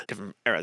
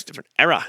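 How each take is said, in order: First: A softer afterthought; softer, lower echo. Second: Said in the usual way. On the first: Shown as a demonstration. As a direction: repeat it quietly, lower. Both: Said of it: "Look how different that looks".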